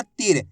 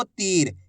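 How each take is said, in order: First: "तीर" cut short, like तिर; short i vowel. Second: "तीर" with the ई stretched long; long drawn-out ī. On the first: Teacher showing learners the mistake, "तीर" with short vowel. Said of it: "ऐसे नहीं पढ़ना". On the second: Teacher showing learners the way to read it, "तीर" drawn out. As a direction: hold the vowel before र in "तीर". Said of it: "तो इसी तरीके से पढ़ना आपको". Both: Shown as a demonstration.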